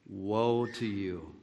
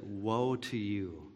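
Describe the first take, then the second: First: Slow, soft grave pronouncement; slow sorrowful woe, quietly pronounced; solemn lament. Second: Softer, slow grieving pronouncement; hushed, slow woe with a heavy fall; solemn lament. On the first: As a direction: say it low and slow, heavy with pity. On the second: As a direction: let it fall quietly, full of pity. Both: Retold or imitated. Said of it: "And that's how he said it".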